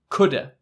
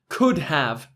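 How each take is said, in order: First: Have is reduced to a short uh sound. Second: The word have is said in full.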